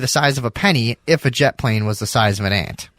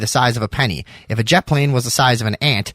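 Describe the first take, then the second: First: The voice runs on from 'penny' into the 'if' clause. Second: The voice stops after 'penny' and starts a new sentence. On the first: The jet plane comparison explains the penny size. The speaker calls it right. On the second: The jet plane comparison leads into the next clause. The speaker calls it wrong.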